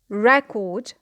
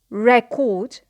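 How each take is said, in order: First: The stress is on the first syllable. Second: The stress is on the first syllable.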